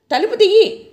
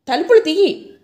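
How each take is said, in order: First: Much higher and louder, frantic yell; desperate yell. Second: A first raised yell to open the door; shout. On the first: Locked-in woman screams at the door, frantic high yell. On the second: Locked-in woman shouts to be let out, mildly raised. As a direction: call out, only a little higher. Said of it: "నేను మళ్ళా అరిచాను". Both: Retold or imitated.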